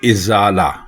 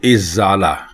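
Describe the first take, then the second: First: The word begins with an 'i' vowel. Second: The word begins with an 'i' vowel.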